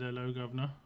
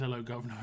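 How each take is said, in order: First: Lightly put-on Cockney, rising at the end; a jokey hint of a Cockney accent on governor; mock Cockney greeting. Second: Half-hearted Cockney cliché, said in passing; mock Cockney. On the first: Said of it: "if one day I came in and said". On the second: Streamer telling chat nobody in the UK says it, understated mock Cockney. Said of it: "no one really says".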